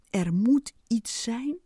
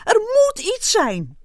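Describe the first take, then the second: First: Slow, much tamer, rising at the end; despairing. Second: High, loud angry yell; furious. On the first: Ant sighing before leaving the wall, resigned despair. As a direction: say it one last time, doubtfully. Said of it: "keek nog één keer vertwijfeld". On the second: Ant stamping and pacing, furious shout. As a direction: rage that it must be so. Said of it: "liep woedend heen en weer". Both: A narrator's reading.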